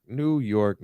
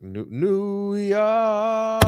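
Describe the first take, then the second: First: Said in the usual way. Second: New, New York stretched very slowly; drawn out. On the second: Real, not acted. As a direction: drag the name out in disbelief. Dragging out the team name.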